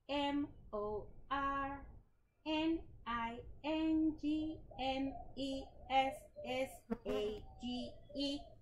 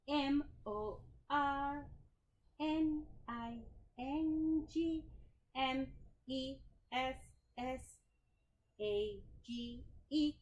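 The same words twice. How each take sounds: First: The letters are spelled at a normal pace. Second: The letters are spelled slowly.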